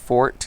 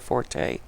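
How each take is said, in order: First: The word is said as one syllable. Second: The word is said as two syllables. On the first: The speaker calls it right. "actually correctly pronounced fort" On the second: The speaker calls it wrong. "instead of forte"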